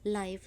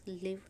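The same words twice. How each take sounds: First: Live with long ai, rhymes with five; live as in live wire, long ai sound; say live as laiv. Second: Live with short i, rhymes with give; live as in to live, short vowel. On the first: (live को लाइव बोलें) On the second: (live छोटे इ के साथ, लिव) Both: Shown as a demonstration. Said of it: "the next spelling is live".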